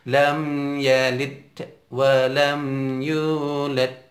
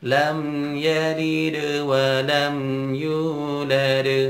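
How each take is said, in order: First: The voice brakes to a stop after yalid. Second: Yalid flows straight into wa without stopping. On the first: The speaker calls it wrong. "Tidak boleh ... ngerem itu" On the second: The speaker calls it right. "Sambungkan saja"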